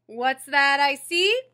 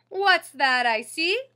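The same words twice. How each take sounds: First: Big, slow, teasing call; playful bus driver. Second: Bus driver's greeting. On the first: Driver greets the boy boarding, big slow tease. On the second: Same line reread. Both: Acted.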